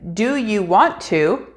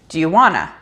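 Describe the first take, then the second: First: The words 'want to' are said fully. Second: The words 'want to' are reduced to 'wanna'.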